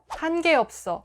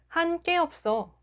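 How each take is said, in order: First: 게 starts with a plain g. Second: 게 starts with a tense kk. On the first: The speaker calls it right. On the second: The speaker calls it wrong.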